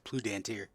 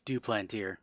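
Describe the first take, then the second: First: The surname begins with a 'plu' sound. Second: The surname begins with a 'du' sound. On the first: "I said Plutantier" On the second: "Listen to my pronunciation"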